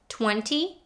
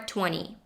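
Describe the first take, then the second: First: The T after the N is pronounced. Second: The T after the N is dropped.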